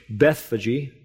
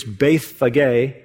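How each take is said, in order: First: Bethphage said BETH-fa-jee; English pronunciation. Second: Bethphage said BETH-fa-gay; Greek pronunciation. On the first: Preacher giving the anglicised village name, Bethphage as BETH-fa-jee. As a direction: say Bethphage with a soft g, ending in "jee". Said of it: "some have pronounced it in English". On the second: Preacher teaching the village's Greek name, Bethphage as BETH-fa-gay. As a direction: say Bethphage with a hard g, ending in "gay". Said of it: "in Greek it's". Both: Shown as a demonstration.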